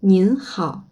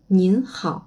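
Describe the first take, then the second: First: Nin hao with a clear final n on nin; polite nin hao. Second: Nin hao repeated for students, n on nin held; polite nin hao. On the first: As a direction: stress nin and let it fall. (nin hao poli, bien articuler le n) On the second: (nin hao répété pour les élèves) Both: Shown as a demonstration. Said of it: "différence entre ni hao et nin hao".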